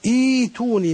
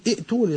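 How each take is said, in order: First: The hamza becomes a long i vowel. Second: The second hamza is a full glottal stop. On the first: The speaker calls it right. "تبدأ مثلا إيتوني" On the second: The speaker calls it wrong. "لا تقول ائتوني"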